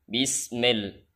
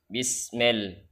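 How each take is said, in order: No difference in how they are said.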